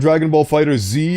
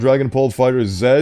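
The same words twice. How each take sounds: First: The final letter is pronounced 'zee'. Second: The final letter is pronounced 'zed'. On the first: It follows how a favourite parody narrator said it. "the reason why I said Dragon Ball Fighter Z" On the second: It is the usual way, which sounds cooler elsewhere. "and not Dragon Ball Fighter Z"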